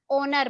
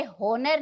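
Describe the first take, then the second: First: ऑनर with a silent H, starting on "aw"; ऑनर spoken with the H dropped; correct pronunciation. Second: होनर with the H sounded, as "ho-nar"; होनर spoken with the H pronounced; wrong pronunciation. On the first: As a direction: say ऑनर opening straight on the vowel, no H. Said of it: "ऑनर बोलते हैं". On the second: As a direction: say होनर with a clear H at the start, the way it is not said. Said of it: "इसे होनर नहीं बोलते". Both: Shown as a demonstration.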